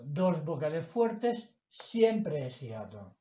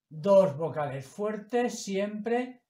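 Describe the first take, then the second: First: Said in the usual way. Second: Slow, each word weighed, a touch louder; teacher's emphasis. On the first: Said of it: "Por lo tanto". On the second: Shown as a demonstration. Teacher stressing the rule to students, slow and weighty. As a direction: drive home "Dos vocales fuertes siempre" word by word. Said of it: "son dos sílabas diferentes".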